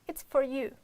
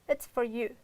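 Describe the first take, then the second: Both takes have the same delivery.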